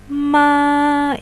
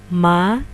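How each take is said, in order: First: The pitch stays high and level. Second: The pitch rises from low to high. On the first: "ini untuk nada satu" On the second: "untuk nada dua"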